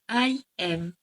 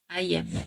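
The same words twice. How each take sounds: First: Both words are said fully and separately. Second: The words merge into one contracted syllable. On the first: "I am becomes I am" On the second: "the vowel of a is removed in connected speech"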